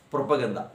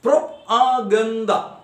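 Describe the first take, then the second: First: Said in the usual way. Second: "Propaganda" slowly split into separate beats; syllable by syllable. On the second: Shown as a demonstration. Teacher demonstrating polysyllabic words, syllable by syllable. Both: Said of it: "Listen, some polysyllabic words".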